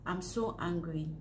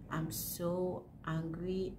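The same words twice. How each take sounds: First: Said in the usual way. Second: "so" drawn out, said slowly; slow, stressed so. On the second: Real, not acted. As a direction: lean on "so", slow the whole line.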